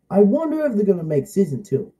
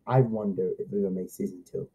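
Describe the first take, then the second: First: Said in the usual way. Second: Much lower, softer and fast; quick quiet aside. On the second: Shown as a demonstration. Kid wondering about a second season, quick quiet aside. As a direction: mutter it to yourself, hurried.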